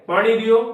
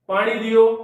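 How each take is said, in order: Both takes have the same delivery.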